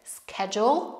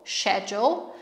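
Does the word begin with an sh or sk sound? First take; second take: sk; sh. First: It is said in an American accent with sk. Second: It is said in a British accent with sh.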